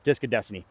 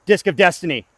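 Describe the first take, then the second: First: Said in the usual way. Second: "Disc of Destiny" called out loud and high; loud hype call. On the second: Shown as a demonstration. Disc golfer hyping his throw, loud call. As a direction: announce it like a champion.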